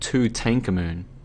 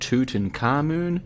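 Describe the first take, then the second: First: The stress is on the second syllable. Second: The stress is not on the second syllable.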